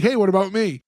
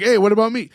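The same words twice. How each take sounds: First: Said in the usual way. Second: Lightly voiced kid, a little raised; just a touch of the kid's voice; hint of character voice. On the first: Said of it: "I cannot do the accent". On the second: Host quoting Maurice while resisting his accent, hint of character voice. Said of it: "tough to not do the accent".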